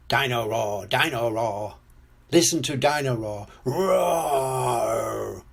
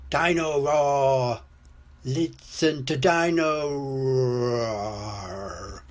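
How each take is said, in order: First: Chanted toy jingle ending in a roar; singing toy dinosaur. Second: Slow, dragging chant sinking at the end; slow down and let the roar die away; toy running down. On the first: Toy dinosaur performs for George, chanting and roaring. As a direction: chant it evenly, then draw out the roar. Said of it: "Dino Roar sings". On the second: Toy's batteries run out, slowing and sinking. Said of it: "Dino Roar stops walking and talking". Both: A narrator's reading.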